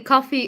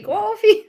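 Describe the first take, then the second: First: The word is said without a New York accent. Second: The word is said with a New York accent. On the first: "I say coffee" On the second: "and you say coffee"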